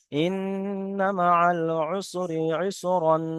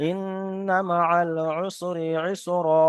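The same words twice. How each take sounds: First: Slow recitation ending with the nasal ইসরান; wrong ending ইসরান. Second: Slow recitation ending on a long open ইসরা with no -n; correct stop ইসরা. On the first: Teacher shows the wrong reading to students, slow recitation. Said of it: "এই ইসরান নয়". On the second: Teacher shows the right stop to students, slow recitation. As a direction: drop the tanween, close on ইসরা. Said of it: "তখন উচ্চারণ হবে". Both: Shown as a demonstration.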